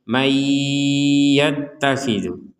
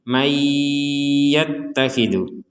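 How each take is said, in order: The two takes are said the same way.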